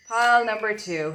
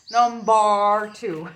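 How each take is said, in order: First: Said in the usual way. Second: Loud, drawn-out Irish "number two"; exaggerated Irish brogue. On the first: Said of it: "why I said it like that". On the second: Shown as a demonstration. Reader mocks how they just said it, exaggerated Irish brogue. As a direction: stretch it loudly in a big Irish brogue. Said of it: "with my lovely Irish accent".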